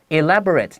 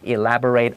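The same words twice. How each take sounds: First: The final syllable is pronounced like 'it'. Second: The final syllable is pronounced like 'ate'. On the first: It is an adjective meaning intricately made. "就是形容词，它发 i 的声音" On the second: It is a verb meaning to explain in more detail. "a 的声音就是动词"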